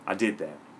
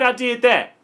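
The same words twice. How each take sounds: First: It sounds hesitant and reluctant, like a grudging admission. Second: It sounds boastful and proud, with confident emphasis. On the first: The speaker admits it without being happy about it. "yeah, I, I did I did do that" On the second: The speaker is proud of having done it. "Yeah, you motherfucking right"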